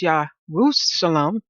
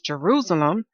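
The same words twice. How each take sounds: First: It has a Hebrew-style pronunciation. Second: It has the common English pronunciation. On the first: "in the Hebrew way, we say it as Jerusalem" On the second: "many pronounce it as Jerusalem"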